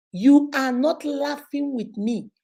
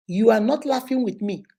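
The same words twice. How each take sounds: First: "not laughing with me" stretched out slowly; slow emphatic repeat. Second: Said in the usual way. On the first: Real, not acted. Slogan repeated slowly for comments.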